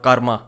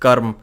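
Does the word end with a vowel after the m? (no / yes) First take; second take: yes; no. First: The word ends with an added final vowel. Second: The word ends on the m, no final vowel. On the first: This is how it is commonly said elsewhere. The speaker calls it wrong. "people say kar, karma, like how you guys say" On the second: This is the Hindi pronunciation. The speaker calls it right. "It is pronounced as karm"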